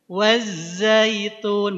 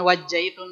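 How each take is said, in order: First: The consonant before -aitun is a buzzing z. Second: The consonant before -aitun is a j. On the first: The speaker calls it right. "wattini waz wazaitun" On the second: The speaker calls it wrong. "bukan wajaitun lagi ya"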